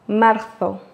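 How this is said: The z sounds like a soft th. This is how it is said in Spain. "en Espagne, on place la langue derrière les dents au haut en laissant passer l'air tout doucement"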